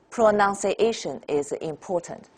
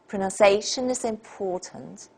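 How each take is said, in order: First: Every syllable gets about the same force. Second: A few stressed syllables stand out clearly. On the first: The speaker calls it wrong. "it's not pronunciation is important, that's Chinese" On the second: The speaker calls it right. "In English we say pronunciation is important"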